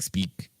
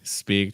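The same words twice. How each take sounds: First: The vowel is clipped short and quick. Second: The vowel is held open and long. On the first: The speaker calls it wrong. "Because your vowel's so fast, like speak" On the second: The speaker calls it right. "Just just open up that vowel, extend it a little bit"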